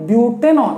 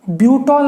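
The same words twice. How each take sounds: First: ब्यूटेनॉल as three syllables, "byoo-ten-awl"; ब्यूटेनॉल with "en" before the final "ol"; corrected name demonstrated. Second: ब्यूटॉल as two syllables, "byoot-awl"; ब्यूटॉल with "ol" straight after "byoot"; wrong name demonstrated. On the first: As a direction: keep the "ten" audible in ब्यूटेनॉल. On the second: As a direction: drop the "en" in ब्यूटॉल. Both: Shown as a demonstration. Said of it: "ब्यूटॉल नहीं".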